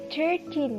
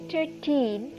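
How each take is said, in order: First: The stress is on the first syllable. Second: The stress is on the second syllable. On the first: "the emphasis is on the beginning of the syllable" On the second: "it is emphasized on the back of the syllable"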